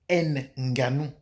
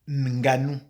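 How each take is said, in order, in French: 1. Le N initial se prononce comme une syllabe séparée. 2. Le N initial est fondu dans la première syllabe. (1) "On ne saurait donc dire"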